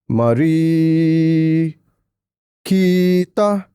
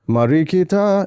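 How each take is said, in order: First: Stress and lengthening fall in misplaced spots. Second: Stress and lengthening fall in the natural places. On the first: This shows it was composed by a non-native speaker. The speaker calls it wrong. "the stress points, and where you elongate is not on point" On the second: This is how a native speaker would phrase it. The speaker calls it right. "instead of uh Marikita"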